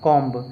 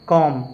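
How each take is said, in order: First: The final b sound is pronounced. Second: The final b sound is silent. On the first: The speaker calls it wrong. "ऐसे नहीं पढ़ना है" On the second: The speaker calls it right. "सही अंग्रेजी उच्चारण"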